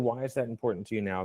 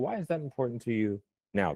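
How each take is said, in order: First: No word is given special stress. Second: The word "now" carries the stress. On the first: The listener chooses which meaning to answer. "First one, neutral" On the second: The listener answers in terms of time. "you will answer in terms of time frame"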